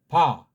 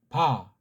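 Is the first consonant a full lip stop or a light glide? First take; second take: full stop; full stop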